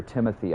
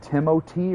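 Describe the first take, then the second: First: Said in the usual way. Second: "Timothy" as Timo-tee, T instead of th; French-style pronunciation. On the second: Shown as a demonstration. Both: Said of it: "I've never heard his name spoken out loud".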